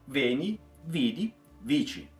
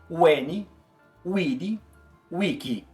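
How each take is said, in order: First: The last word begins with a v sound. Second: The last word begins with a w sound. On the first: This is how a priest says it today. "un padre di oggi falaria" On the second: This is how it sounded in ancient Roman times. "soaria algo meio estranho como"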